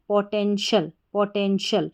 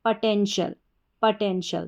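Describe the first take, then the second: First: "पोटेंशियल" with a full "पो" as in "po-TEN-shal"; first way. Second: "पोटेंशियल" with a short "प" as in "puh-TEN-shal"; second way. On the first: Teacher says "पोटेंशियल" with a clear "पो" sound. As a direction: open the first syllable as "पो", then "टेन", then "शल". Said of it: "जैसे पीओ को हमने पढ़ा पौ". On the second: Teacher shows the other way to say "पोटेंशियल", short "प" first. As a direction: reduce the first syllable to a short "प", then "टेन", then "शल". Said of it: "पीओ को प भी pronounce कर सकते हैं". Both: Shown as a demonstration.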